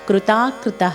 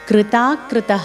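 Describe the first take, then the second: Both takes have the same delivery.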